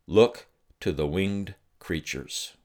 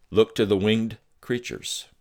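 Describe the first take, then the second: First: Slow, measured voice of the Father; God's words, slow. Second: Higher, stressed repeat of "Look to the winged creatures"; emphatic repeat. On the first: Retold or imitated. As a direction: let each word land slowly. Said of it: "this is what he said". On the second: Shown as a demonstration. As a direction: drive the command home.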